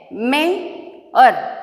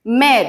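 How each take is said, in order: First: "Mayor" drawn out as may, or; syllable by syllable. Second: Said in the usual way. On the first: Shown as a demonstration. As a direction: stretch "may", pause, then "or" in "Mayor". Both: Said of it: "Now I am splitting the words".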